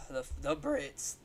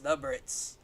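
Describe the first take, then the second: First: Said in the usual way. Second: High, put-on British drawl; posh British voice. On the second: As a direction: say it like a posh Brit. Mock build-up before British bit.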